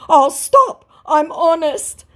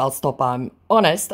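First: Much higher and louder, slow; squeaky hammed-up plea; mock scammer voice. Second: Said in the usual way. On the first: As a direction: scammer pleading, mocked. Voicing scammer. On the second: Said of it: "in response to".

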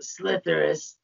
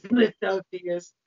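First: The name fumbled as "Slitherus". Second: "Slithotheus" with OH-thee-us at the end; slow, careful "Slithotheus"; corrected name. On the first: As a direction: say "Slitherus" with an ER in the middle, no OH. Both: Acted.

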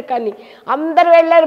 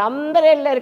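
First: వెళ్ళారు hit louder and higher; stress on వెళ్ళారు. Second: Said in the usual way. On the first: Shown as a demonstration. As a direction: lean hard on వెళ్ళారు. (వెళ్ళారు పై ఒత్తిడి) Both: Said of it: "repeated for emphasis".

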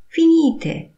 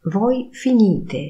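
First: "Finite" far higher and louder, sharp fall; commanding tune. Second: Said in the usual way. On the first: Shown as a demonstration. Teacher barks "Finite" at the class as an order. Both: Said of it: "intonacja powodują".

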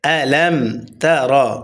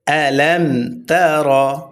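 No difference in how they are said.

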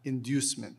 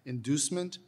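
First: "inducement" as in-DYOOS-ment; second pronunciation. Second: "inducement" as in-DOOS-ment; first pronunciation. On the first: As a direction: say "inducement" with a y-glide after the d. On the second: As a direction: say "inducement" with a plain DOO, no y-glide. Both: Shown as a demonstration. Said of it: "The two pronunciations are".

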